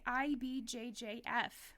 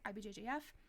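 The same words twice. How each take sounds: First: The letters are said at a normal, separate pace. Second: The letters are said fast and run together.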